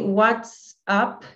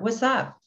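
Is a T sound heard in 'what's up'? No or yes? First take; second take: yes; no. First: The T sound is clearly pronounced. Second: The T sound is dropped.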